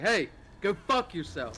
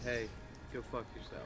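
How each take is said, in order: First: It is said in an agitated, heated voice. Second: It is said in a calm, even voice.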